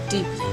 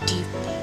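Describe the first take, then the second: No difference in how they are said.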